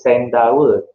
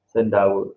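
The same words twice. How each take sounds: First: The first vowel is a clear e sound. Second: The first vowel is a weak schwa sound. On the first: The speaker calls it wrong. "Kita tak sebut sendawa" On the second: The speaker calls it right. "kita sebut sen sendawa"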